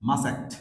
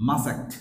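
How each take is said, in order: No difference in how they are said.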